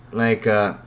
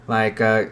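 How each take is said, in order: Both takes have the same delivery.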